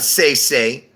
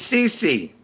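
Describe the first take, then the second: First: Each syllable rhymes with the word 'day'. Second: Each syllable rhymes with the word 'tree'. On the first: The speaker calls it wrong. "It's not say say" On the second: The speaker calls it right. "It's C C, basically"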